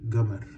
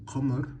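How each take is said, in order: First: It begins with a hard g sound. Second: It begins with a deep throaty q sound. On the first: This is the Sudanese Arabic form. "in Sudanese Arabic, I'll say gamar" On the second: This is the standard Arabic form. "In standard Arabic, I'll say qamar"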